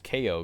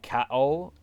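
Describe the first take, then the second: First: It is said as two separate spelled letters. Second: It is said as one syllable rhyming with now. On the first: It is a pun on knockout. "I always assumed it was K O because like it's a pun, like knockout" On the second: This is how the game itself says it. "in this version they say cow, like cow"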